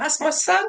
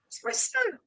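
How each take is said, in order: First: Proud mum. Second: Very high, soft, gushing; a proud mum beaming at her big lad. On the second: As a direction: swoon with pride over your son. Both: Retold or imitated. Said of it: "I'm like a proud mum".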